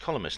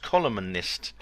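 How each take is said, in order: First: The N sound in the middle is silent. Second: The N sound in the middle is pronounced. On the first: This is the older way people said it. "people always used to say columnist. It was just columnist" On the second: This is the newer way people say it. "the word columnist now has a has a voiced N"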